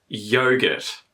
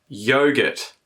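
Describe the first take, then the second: Both takes have the same delivery.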